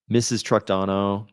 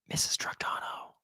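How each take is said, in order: First: It is spoken in a normal voice. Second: It is whispered.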